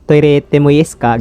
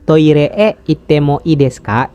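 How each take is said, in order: First: It is said quickly, with words run together. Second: It is said slowly, word by word. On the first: "Jadi cepet gitu" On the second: "Kalau di Indonesia kan"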